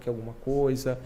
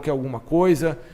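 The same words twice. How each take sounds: First: The tone is soft and gentle. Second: The tone is curt and harsh. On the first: The visitor is welcomed and put at ease. The speaker calls it right. "essa fala já vai desarmando ele" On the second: The visitor feels coldly received. The speaker calls it wrong. "Esse tom mais ríspido"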